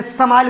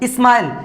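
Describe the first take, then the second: First: समाइल said as "sa-mail", vowel after the s; full "sa" sound. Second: स्माइल said as "is-mail"; leading "is" sound. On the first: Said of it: "सा क्यों नहीं बोल रहे?". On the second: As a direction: begin स्माइल with a short "i". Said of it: "यहाँ पर ही इस हो रहा है". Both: Shown as a demonstration.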